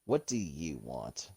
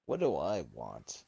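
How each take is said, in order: First: Low, slow genie with weight on you; genie act, stress on YOU. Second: Low, slow genie with weight on I; genie act, stress on I. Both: Acted. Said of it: "act like a genie".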